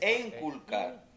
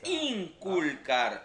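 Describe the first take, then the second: First: The word begins with an E sound. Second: The word begins with an I sound. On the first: The speaker calls it wrong. "No hable errado. No es enculcar" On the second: The speaker calls it right. "es inculcar"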